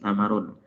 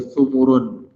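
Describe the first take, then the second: First: Both syllables carry an a vowel. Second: Both syllables carry a u vowel. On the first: "bi fathis sa wal mim" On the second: "Wa bi dhammiha wa bi dhammihima"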